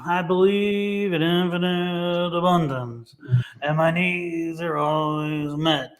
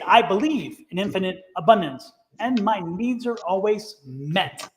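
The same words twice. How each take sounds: First: It is said in a flat, half-hearted way. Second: It is said firmly, with real conviction. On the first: The speaker does not really believe it. The speaker calls it wrong. "Don't say it as in, "Ah" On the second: The speaker truly believes it. The speaker calls it right. "You get to say it"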